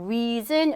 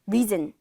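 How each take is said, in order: First: The first vowel is said long. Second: The first vowel is said short. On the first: The speaker calls it right. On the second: The speaker calls it wrong.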